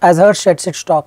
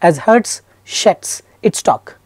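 First: The words flow together in natural connected speech. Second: Each word is said separately and exaggerated. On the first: The speaker calls it right. "I'm just reading natural" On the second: The speaker calls it wrong. "reading every word independently"

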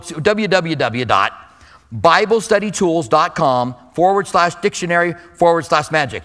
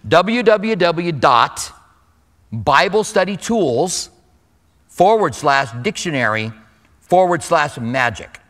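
First: It is said at a moderate, fairly slow pace. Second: It is said even more slowly than before.

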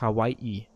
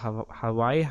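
First: A glottal catch separates the final vowels. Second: The final vowels run together without a catch. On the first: "Und das heißt dann eigentlich Hawaii. Mit einem eben drin" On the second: "wird man ja Doppel-I geschrieben"

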